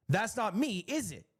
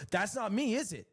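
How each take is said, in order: Both takes have the same delivery.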